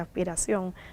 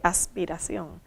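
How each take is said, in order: First: The s is aspirated, like a breathy h. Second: The s is a clear hissing s. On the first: "dije aspiración" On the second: "no dije aspiración"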